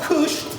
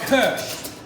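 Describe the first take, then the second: First: The vowel sounds like the one in 'push'. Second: The vowel sounds like the one in 'first'. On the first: The speaker calls it wrong. "Not kush" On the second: The speaker calls it right. "but kirsch"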